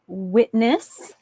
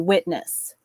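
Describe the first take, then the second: First: The syllables are said carefully and separately. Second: The syllables are joined smoothly together. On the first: "I was trying to enunciate" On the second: "together you'd say"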